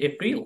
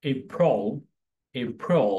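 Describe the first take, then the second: First: Said in the usual way. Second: এপ্রিল said as "EI-prol"; correct English pronunciation. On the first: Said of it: "সবসময় আমরা এইভাবে উচ্চারণ করে থাকি". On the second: Shown as a demonstration. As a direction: give এপ্রিল a rounded second syllable, "prol" instead of "pril". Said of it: "এর সঠিক উচ্চারণ হচ্ছে".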